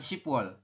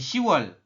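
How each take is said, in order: First: It is said with a p sound before wol. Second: It is said without a p sound before wol. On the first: The speaker calls it wrong. "bukan shipwol" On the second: The speaker calls it right. "Di sini dibacanya hanya si"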